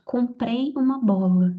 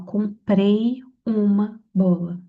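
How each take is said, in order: First: Said in the usual way. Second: "Comprei uma bola" said very slowly, leaning on "comprei"; slow deliberate example. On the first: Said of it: "olha o oculto". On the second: Shown as a demonstration. Teacher showing students the hidden subject, slow and stressed. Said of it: "ele tá oculto, ó".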